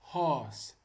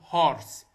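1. لا يُنطق صوت الراء بعد الحرف المتحرك. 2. يُنطق صوت الراء بعد الحرف المتحرك. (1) "هذه تنقري هورس هورس" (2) "هذه مو تنقال سبورت ولا تنقري هورس"

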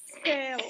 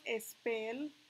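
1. La palabra empieza directamente con el sonido s. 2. Se añade una vocal e antes de la s. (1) "yo arranco desde ese sonido. Y digo" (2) "antes de la S no hay una E. O sea que no decimos spell"

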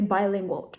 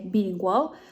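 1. Pierwsza sylaba brzmi jak 'bye'. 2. Pierwsza sylaba brzmi jak 'bee'. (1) "a tak naprawdę prawidłowa wersja jest bilingual" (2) "wiele osób właśnie na początku przeczytało to właśnie bilingual"

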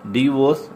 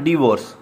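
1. पहला स्वर एक छोटे 'ih' जैसा बोला जाता है। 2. पहला स्वर एक छोटे 'ih' जैसा बोला जाता है।

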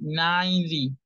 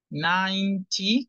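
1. Tiene un acento americano con una t suave. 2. Tiene un acento británico con una t clara. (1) "90 en pronunciación de Estados Unidos" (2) "90 con la T en pronunciación británica"

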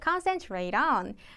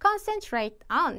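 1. flap t이며, 다음 단어와 자연스럽게 이어집니다. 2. 분명한 t이며, 두 단어를 따로 발음합니다. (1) "트 발음을 르로 수정하신 다음에 D랑 같이 연음으로 묶을 겁니다" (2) "concentrate on 대신에"

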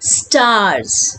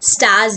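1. r की आवाज़ साफ़ बोली जाती है। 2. r की आवाज़ छोड़ दी जाती है। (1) "तो आर का प्रोनाउंसिएशन देंगे" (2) "स्टार्स नहीं"

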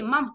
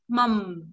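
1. Âm m cuối dừng đột ngột, không có tiếng ngân. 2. Âm m cuối được giữ như một tiếng ngân ngắn. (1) "Còn nếu không ầm nó chỉ mầm. Hết" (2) "Cuối hơi mình môi hơi ầm một chút nhé"

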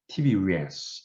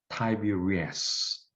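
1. 첫 음절은 미국식 영어로 tee처럼 들려요. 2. 첫 음절은 영국식 영어로 tie처럼 들려요. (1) "미국식 영어에서는 Tiberias 이렇게 읽어요" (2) "영국식 영어는 Tiberias 이렇게 읽어요"

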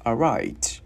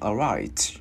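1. Âm t cuối được bật ra với một hơi. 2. Âm t cuối được bật ra với một hơi.

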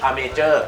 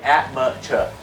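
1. ออกเสียงด้วยสำเนียงไทย 2. ออกเสียงด้วยสำเนียงอังกฤษแท้ (1) "แต่บ้านเราออกเสียง" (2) "แต่ฝรั่งออกเสียง"

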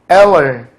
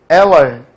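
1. 가운데 음절은 약하게 줄어들어서 거의 두 음절처럼 들려요. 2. 가운데 음절은 약하게 줄어들어서 거의 두 음절처럼 들려요.

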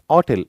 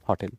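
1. या शब्दाची सुरुवात स्वराच्या आवाजाने होते. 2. या शब्दाची सुरुवात 'h' च्या आवाजाने होते. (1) "ऑटेल याच सायलेंट आहे" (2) "बहुतांश देशामध्ये हॉटेल म्हणतात"

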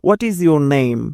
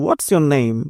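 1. 'is' শব্দটি পুরোপুরি উচ্চারিত হয়। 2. 'is' শব্দটি 'what'-এর সাথে মিশে সংকুচিত হয়।

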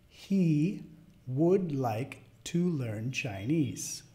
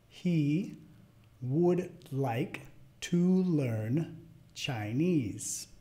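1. Se dice a velocidad media. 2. Se dice bastante despacio. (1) "a la segunda vez de velocidad media" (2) "La primera vez media lento"

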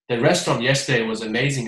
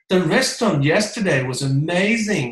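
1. 读得很平，没有任何感情。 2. 很活泼、夸张，充满兴奋。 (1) "朗读出来的话呢，很平淡" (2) "李佳琦上身啊"

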